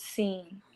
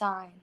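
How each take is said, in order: First: The vowel sounds like 'ee', rhyming with seen. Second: The vowel sounds like 'eye', rhyming with sign. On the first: The speaker calls it right. "but it's seen, right?" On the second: The speaker calls it wrong. "I always think it should be pronounced sign"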